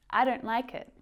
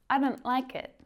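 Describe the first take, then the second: Both takes have the same delivery.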